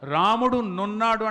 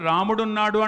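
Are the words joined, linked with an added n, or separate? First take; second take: n-linked; joined. First: An extra n sound links the two words. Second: The two words merge with the final vowel dropped. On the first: The speaker has suddenly woken from a dream. "నాకు నిద్ర పట్టి కల్లో సడన్గా మెలకు వస్తే" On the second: The speaker simply chooses to say it this way. "నా ఇష్టం"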